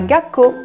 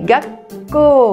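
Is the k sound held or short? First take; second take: Short; Held. First: The k sound is short, with no hold. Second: The k sound is held, then released. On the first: The speaker calls it wrong. "Ça ne se dit pas" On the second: The speaker calls it right. "le son, il rebondit un peu"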